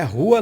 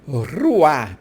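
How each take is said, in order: First: The opening R is said softly and lightly. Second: The opening R is pulled out strongly. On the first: The speaker calls it wrong. "Não é rua não" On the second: The speaker calls it right. "Pode puxar bem o R mesmo"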